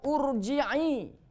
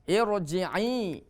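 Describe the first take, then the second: First: The word begins with an u vowel. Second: The word begins with an i vowel. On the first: The speaker calls it wrong. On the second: The speaker calls it right. "dengan kasroh"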